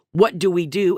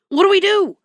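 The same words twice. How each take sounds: First: Said in the usual way. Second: High whiny husband voice; panicky husband. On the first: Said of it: "dumbfounded that he figured". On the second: Retold or imitated. Husband asks wife what to do, high and whiny. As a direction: squeak it out helplessly.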